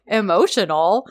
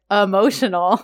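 First: Emotional? with a rising, questioning tune; puzzled question. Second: Emotional. said with a firm falling tune; flat confirmation. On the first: Serkan repeating the doctor's word, rising question. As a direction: echo the word back in disbelief, pitch rising at the end. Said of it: "And he's like". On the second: Doctor confirming her diagnosis to Serkan, falling statement. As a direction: confirm it matter-of-factly, dropping at the end. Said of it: "And she's like". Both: Retold or imitated.

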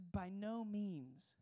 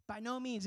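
First: Drawn-out, solemn "By no means."; slow solemn refusal. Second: "no" hit firmly in "By no means."; emphatic no. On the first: Retold or imitated. Pastor reading Paul's answer to the congregation, slow and solemn. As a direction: stretch "By no means." very slowly, each word weighty. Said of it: "He says". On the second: Shown as a demonstration. Pastor stressing Paul's emphatic no to listeners, firm stress. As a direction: punch the "no" in "By no means.". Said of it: "it's an emphatic no".

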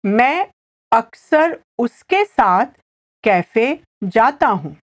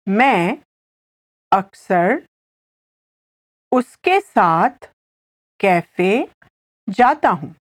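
First: Said in the usual way. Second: Word by word with long pauses; slow repetition. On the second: Shown as a demonstration. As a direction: spell the sentence out slowly for a learner, phrase by phrase. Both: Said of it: "I'll say it again slowly".

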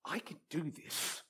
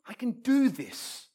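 First: Much softer, private pep talk; quiet self-assurance. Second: Slow, higher pep talk leaning on DO; determined self-assurance. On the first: Player thinks to himself before the shot, quietly assured. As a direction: tell yourself under your breath. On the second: Player psyches himself up for the shot, slow and determined. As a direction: psych yourself up, stretching "do this". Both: Acted.

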